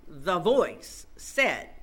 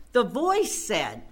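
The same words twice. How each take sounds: First: "the voice said" drawn out slowly, each word stretched; slow it right down to build suspense; slow dramatic repeat. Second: Said in the usual way. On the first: Acted. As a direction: hold "voice" long before the quote lands. Repeats the phrase for emphasis.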